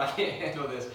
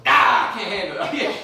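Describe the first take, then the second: First: Lightly acted overwhelm, low voice; overwhelmed king. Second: Loud outburst breaking into laughter; mock freak-out. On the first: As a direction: mildly play a king who can't cope. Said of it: "I'm overwhelmed". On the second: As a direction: pretend to snap under stress, yelling. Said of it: "somebody freaked out and all of a sudden".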